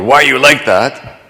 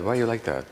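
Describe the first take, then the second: First: It sounds accusing. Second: It sounds gently curious.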